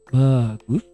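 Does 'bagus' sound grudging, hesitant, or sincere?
hesitant. It is said hesitantly, as if a reservation follows. The praise holds back an objection. "bagus tapi, nah ada tapi"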